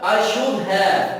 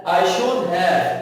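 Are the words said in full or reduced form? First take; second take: reduced; reduced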